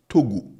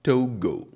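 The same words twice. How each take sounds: First: Togo with a pure flat O, said loud; Ghanaian Togo. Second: Togo with a gliding English O; foreign Togo. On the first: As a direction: say Togo the local way. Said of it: "Here it's Togo". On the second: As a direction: mimic the foreign way of saying Togo. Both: Shown as a demonstration.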